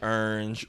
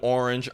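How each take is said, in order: First: It is said with a strong New Orleans accent. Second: It is said in a standard accent.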